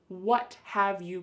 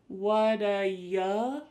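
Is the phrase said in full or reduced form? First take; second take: full; reduced. First: Each word is said fully and separately. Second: The words blend together into a reduced form. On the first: "we have what have you got?" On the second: "But it sounds like woulda"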